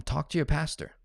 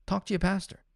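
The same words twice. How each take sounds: First: Said in the usual way. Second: "Talk to your pastor" said much higher, pointed; emphatic repeat. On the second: Real, not acted. Coach telling clients where emotional talk belongs, pointed and emphatic. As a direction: punch it home the second time.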